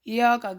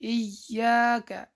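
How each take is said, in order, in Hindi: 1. y ध्वनि छोटी और एकल है। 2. y ध्वनि दोहरी और खिंची हुई है।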